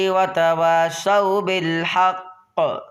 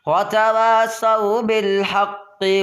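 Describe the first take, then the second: First: The phrase stops on a silenced final consonant. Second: The final consonant carries a vowel, running on. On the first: "पहली मरतबा में यहाँ पे वफ़ करेंगे" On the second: "फिर दूसरी मरतबा में मिला के पढ़ेंगे"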